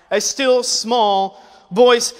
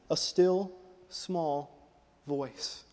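First: Drawn out slowly, word by word; slow emphasis. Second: Slow, much softer, fading almost to nothing; hushed. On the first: Preacher reading scripture aloud, slow and deliberate. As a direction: let each word hang. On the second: Preacher showing God's gentle voice, slow and hushed. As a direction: let it shrink to a breath. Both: Shown as a demonstration.

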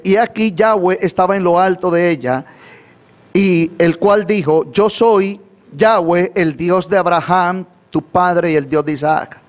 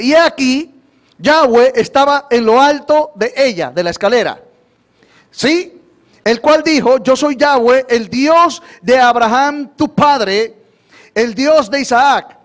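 First: Slower repeat. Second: Raised, higher voice proclaiming the verse; emphatic scripture reading. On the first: Shown as a demonstration. Preacher repeating the verse for the congregation, slowly. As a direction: read the verse again slowly, word by word. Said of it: "Lo voy a repetir más despacio". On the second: Real, not acted. Preacher reads verse aloud, emphatic.

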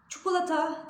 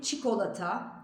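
First: "Çikolata" said as "çukulata" with u sounds; the common mistake, "çukulata"; wrong pronunciation. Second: "çikolata" with clear i and o, "çikolata"; the right way, "çikolata"; correct pronunciation. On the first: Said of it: "Çikolata değil". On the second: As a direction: say "çikolata" cleanly, i then o. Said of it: "değil, çikolata". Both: Shown as a demonstration.

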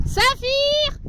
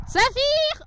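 First: High call again, "Saphir!". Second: High call across the field, "Saphir!". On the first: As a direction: call "Saphir!" over the field. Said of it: "c'est honteux". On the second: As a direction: shout "Saphir!" to a far horse. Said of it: "je vais crier". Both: Real, not acted.

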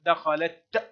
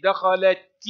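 First: دخلت stopped on a bare t; ta at a pause. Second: دخلت ending in a clear "ti"; ta with its vowel. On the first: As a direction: end دخلت on a crisp t with no vowel. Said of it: "وعند الوقف كذلك تنطق". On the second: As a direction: sound the final ta of دخلت as "ti". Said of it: "تنطق تاء عند الحركة". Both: Shown as a demonstration.

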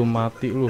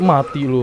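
First: Said in the usual way. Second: Loud high yell of "Mati lu" with a falling end; panicked shout. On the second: Real, not acted. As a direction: yell it at the monster. Attacking the monster in a panic.

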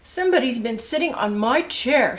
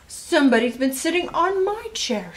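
First: Lightly voiced storybook father, louder; a touch of papa's indignant complaint, louder; Mister Blair. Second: High, louder storybook mother, indignant; Missus Blair. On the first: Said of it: "said Mister Blair". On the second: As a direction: complain as mama, pitched up high. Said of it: "said Missus Blair". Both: A narrator's reading.

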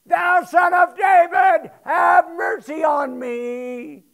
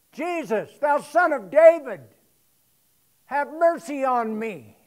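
First: Full-throated shout, much higher and louder, slow; the beggar drowns out the crowd with a slow desperate shout; crying the more. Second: Raised pleading call, louder; a blind beggar calling out to Jesus for mercy; the beggar shouts to Jesus as he passes, pleading; crying out for mercy. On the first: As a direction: bellow it out, desperate for mercy. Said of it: "He cried the more a great deal". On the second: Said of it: "began to cry out". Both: Retold or imitated.

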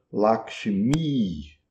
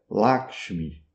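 First: "Lakshmi" with a long final I; Sanskrit long I. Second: "Lakshmi" slow, with a short final I; Hindi short I. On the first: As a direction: hold the last I of "Lakshmi". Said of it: "É um I longo no fim". ("Lakshmi" com I longo) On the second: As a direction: clip the "mi" of "Lakshmi". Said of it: "Um I curto no final". ("Lakshmi" com I final curto) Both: Shown as a demonstration.

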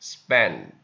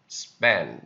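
No difference in how they are said.

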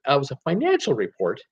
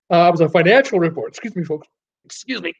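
First: Said in the usual way. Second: Words stretched by a yawn. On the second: Real, not acted. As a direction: talk through a big yawn. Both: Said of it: "Ah, just yawning here".

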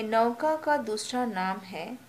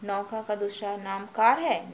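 First: Said in the usual way. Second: कार stressed as the wrong option with a falling tune; testing question. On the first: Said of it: "क है". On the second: Shown as a demonstration. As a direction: lean on कार to test the class. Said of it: "नहीं, नाव है".

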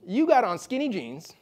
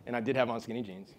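First: Slow, higher-pitched mock Midwestern accent. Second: Said in the usual way. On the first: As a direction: draw it out as a Midwestern bartender. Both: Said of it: "try to do a Midwestern accent".

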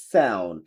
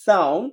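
First: Low American "sound" with AE-oo; American accent. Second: British "sound" with AH-oo, rising; British accent. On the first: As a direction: drop "sound" as SAE-oon. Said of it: "আমেরিকানরা অ্যাও বলে". (American উচ্চারণে) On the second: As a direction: lift "sound" as SAH-oon. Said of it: "ব্রিটিশরা আও বলে". (British উচ্চারণে) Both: Shown as a demonstration.

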